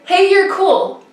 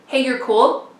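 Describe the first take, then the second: First: High, tossed-off imitation of a passing biker; biker's casual compliment. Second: Said in the usual way. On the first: Biker to a struggling racer, casual compliment. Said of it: "she's like". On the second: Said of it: "what compliment did that biker give me".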